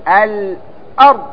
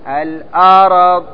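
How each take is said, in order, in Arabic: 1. لا تأتي بعد صوت الراء أي حركة. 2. تأتي بعد صوت الراء حركة الفتحة. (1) "لأن الراء ساكن" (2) "يحرك الراء، الأرض خطأ"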